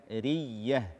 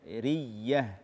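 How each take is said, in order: The two takes are said the same way.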